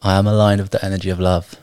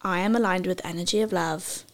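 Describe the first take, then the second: First: Affirmation response. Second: Affirmation call. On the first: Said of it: "repeat after me". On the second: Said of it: "I'll repeat it for you in three words". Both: Shown as a demonstration.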